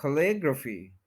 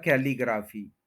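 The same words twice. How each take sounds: First: कैलीग्राफी as kuh-LIG-ruh-fee; short "kuh", stressed LIG in कैलीग्राफी; native pronunciation. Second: कैलीग्राफी as KAI-lee-graa-fee; kae-lee-graa-fee for कैलीग्राफी; mispronunciation. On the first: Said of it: "native pronunciation". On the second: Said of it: "जो कि गलत है". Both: Shown as a demonstration.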